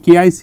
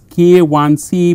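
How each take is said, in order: First: The middle symbol is read as the letter I. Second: The middle symbol is read as the number one. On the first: The speaker calls it wrong. "K I C is wrong" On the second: The speaker calls it right. "you have to pronounce it as K one C"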